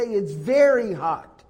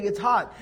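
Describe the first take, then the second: First: "very" leaned on, a bit slower and louder; emphasis on very. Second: Said in the usual way. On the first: Shown as a demonstration. Teacher shows added emphasis, slowly stressing "very". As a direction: stretch out "very hot" to stress it. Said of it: "But if you're trying to emphasize". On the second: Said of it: "you say".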